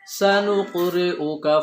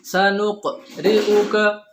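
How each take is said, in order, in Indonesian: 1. Huruf q memantul dengan ringan dan langsung mengalir. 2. Huruf q memantul dengan berat dan diikuti henti. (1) "kita upayakan qalqalahnya sambil berjalan" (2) "itu jadi besar qalqalahnya, kemudian muncul hamzah"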